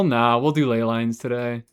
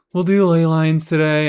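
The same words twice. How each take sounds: First: Said in the usual way. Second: "do" pushed louder and higher; emphatic, louder "We'll do ley lines today"; louder insistence. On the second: Shown as a demonstration.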